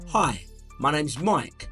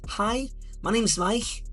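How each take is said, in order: First: It is spoken in another London accent. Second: It is spoken in a higher Liverpool accent. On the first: "you might have a slightly different accent" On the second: "If you're from Liverpool, it might be a little bit higher"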